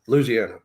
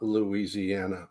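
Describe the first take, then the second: First: The word is blended into three syllables. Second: The word is said with every syllable spelled out. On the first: The speaker is a native of the place. The speaker calls it right. "It's like three syllables" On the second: The speaker is not a native of the place. The speaker calls it wrong. "not Louisiana"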